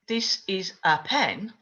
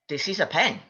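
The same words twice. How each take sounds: First: Each word is said slowly and separately. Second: The words are said quickly and run together. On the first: The speaker calls it wrong. "I wouldn't say" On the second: The speaker calls it right. "we native English speakers speak very quickly"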